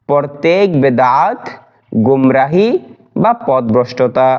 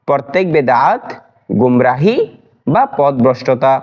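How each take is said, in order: The two takes are said the same way.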